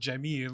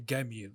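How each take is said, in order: First: The word begins with a J sound. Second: The word begins with a hard G sound. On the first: This is how other Arabic dialects say it. "instead of saying the word jamil" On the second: This is how Egyptian Arabic says it. "the letter J in uh, Egyptian Arabic is changed to a G"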